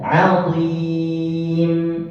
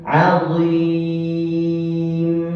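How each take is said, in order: Both takes have the same delivery.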